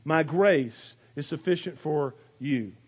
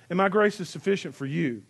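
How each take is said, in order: First: "My grace is sufficient for you" said slowly and a little lower, letting each word ring; slow, ringing delivery. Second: Said in the usual way. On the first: Shown as a demonstration. Pastor savouring the verse that rings for him, slow and resonant. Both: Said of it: "it just rings".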